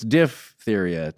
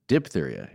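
First: The first syllable sounds like diff. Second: The first syllable sounds like dip. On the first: The speaker calls it right. "it's diphtheria" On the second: The speaker calls it wrong. "not diphtheria, as we've been sometimes saying"

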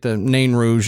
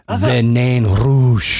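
First: The name is pronounced in a plain, ordinary way. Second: The name is pronounced with an exaggerated French flourish. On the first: "you get the Nain Rouge" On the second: "somebody that's like, overdoes it"

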